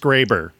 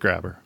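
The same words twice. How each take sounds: First: The first vowel is long, as in gray. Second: The first vowel is short, as in grab. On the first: The speaker calls it right. "The E bops the A on the head and it says A" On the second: The speaker calls it wrong. "I screwed it up, didn't I?"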